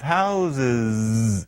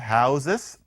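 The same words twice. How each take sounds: First: The word ends with a z sound. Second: The word ends with an s sound. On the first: The speaker calls it right. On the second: The speaker calls it wrong.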